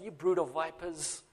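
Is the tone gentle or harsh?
gentle. It is said gently and lovingly.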